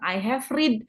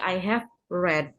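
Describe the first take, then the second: First: The word read has a long ee vowel. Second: The word read has a short e vowel. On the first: The speaker calls it wrong. "Jangan bilang I have read" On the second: The speaker calls it right. "tapi tapi I have read"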